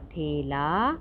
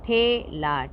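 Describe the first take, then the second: First: Said in the usual way. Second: ठेला split as high loud ठे, then ला; syllable by syllable. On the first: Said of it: "तो शब्द पढ़ते हैं". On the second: Shown as a demonstration. Teacher sounding out ठेला for learners, syllable by syllable. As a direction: hold ठे apart from ला in ठेला. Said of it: "तो इसको क्या बोलेंगे".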